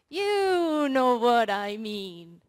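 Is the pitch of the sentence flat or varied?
varied. The pitch moves up and down expressively. "And intonation"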